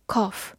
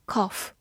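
No difference in how they are said.

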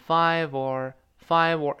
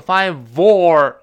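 First: 'five or' run lightly together; light linking. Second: 'five or' with OR blasted loud and long; overstressed OR. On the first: Teacher showing how five joins or, lightly linked 'five or'. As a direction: glide gently from 'five' into 'or' as one word. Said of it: "轻轻连那个". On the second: Teacher showing what not to say, loud heavy OR in 'five or'. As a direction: wrongly hammer the 'or' in 'five or', drawn out. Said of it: "不能说five or，不能重读". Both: Shown as a demonstration.

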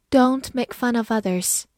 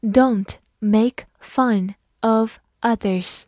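First: Said in the usual way. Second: Slow, careful word-by-word reading; clear, deliberate teacher's model reading. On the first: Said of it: "慢读一遍". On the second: Shown as a demonstration. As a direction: read it slowly for learners. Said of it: "好，慢读一遍".

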